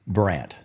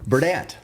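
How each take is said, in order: First: No d sound is pronounced in the middle. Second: A d sound is pronounced in the middle. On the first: The speaker calls it right. "Did I say the D? No" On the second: The speaker calls it wrong. "I was messing around because Brian Barney can't say it right"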